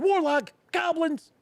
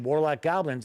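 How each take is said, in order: First: It is said excitedly, with an exclamation. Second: It is said flatly, without extra energy.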